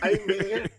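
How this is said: It is said in a put-on imitating voice.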